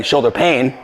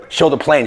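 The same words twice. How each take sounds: First: "pain" said cleanly without the l, as pain; corrected word. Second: "shoulder plane" said with an l, as plane; slip of the tongue. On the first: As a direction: fix "pain" by dropping the l. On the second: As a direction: misspeak "plane" with a clear pl sound. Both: Real, not acted.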